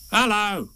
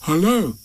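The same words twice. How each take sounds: First: High creature voice answering; strange animal. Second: Higher-pitched questioning greeting; Pooh. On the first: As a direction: echo the greeting as an odd animal. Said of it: "said the strange animal". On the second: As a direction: greet an unseen visitor. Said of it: "said Pooh". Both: A narrator's reading.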